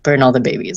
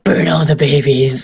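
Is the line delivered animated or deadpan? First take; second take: deadpan; animated. First: It is said flatly with no expression. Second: It is said in a wild, exaggerated way. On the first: The person might actually mean it. "with a completely straight face" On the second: The person is just joking from too many games. "I want to quote Tiny Tina"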